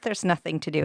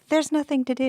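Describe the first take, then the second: First: It is said in a flat, neutral tone. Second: It is said in a whiny, complaining tone. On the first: "It's not just" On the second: "the tone of voice people use when they say there's nothing to do on campus"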